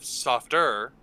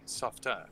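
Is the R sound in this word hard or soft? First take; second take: hard; soft. First: The R is pronounced hard and strong. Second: The R is soft, in a British accent. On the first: "instead of softer" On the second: "the R's in your British accent do tend to be quite a bit softer"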